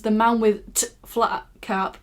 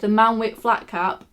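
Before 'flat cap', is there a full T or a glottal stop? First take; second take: full T; glottal stop. First: A full T sound comes before 'flat cap'. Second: A glottal stop comes before 'flat cap'. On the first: The speaker calls it wrong. "and it's not" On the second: The speaker calls it right. "I know how it's supposed to be read"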